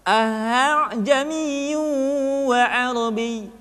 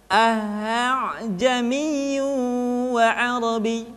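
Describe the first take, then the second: The two takes are said the same way.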